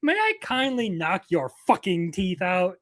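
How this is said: The swear word is strongly emphasized.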